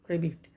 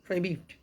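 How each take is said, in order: First: The first syllable has a short 'ih' vowel. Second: The same.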